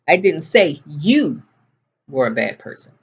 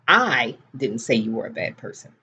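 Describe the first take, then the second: First: The stress falls on the word you. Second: The stress falls on the word I. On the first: It was said about someone else. "I said your brother was a bad person" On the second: Someone else said it. "Somebody else said it"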